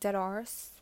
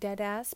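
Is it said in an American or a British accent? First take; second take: British; American. First: It is said in a British accent. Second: It is said in an American accent. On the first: "but not even saying it correctly, like, dead arse" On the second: "it's New Yorker"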